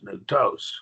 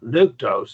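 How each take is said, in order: First: The stress is on the last syllable. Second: The stress is on the first syllable. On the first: The speaker calls it right. "The accent goes on that last syllable" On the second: The speaker calls it wrong. "It's not"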